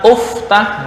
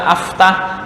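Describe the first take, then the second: First: The word begins with a u vowel. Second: The word begins with an a vowel. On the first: "atau dibaca uftah, nggak boleh" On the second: "Nggak boleh dibaca aftah"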